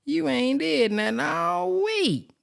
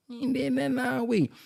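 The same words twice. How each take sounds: First: High, slow scolding call-out; mock scolding. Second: High, softer put-on scolding voice; hammed-up scolding. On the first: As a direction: drag it out high like a fed-up scold. Scolding someone for doing nothing. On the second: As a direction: say it again in a different put-on voice. Repeats the scolding, different voice.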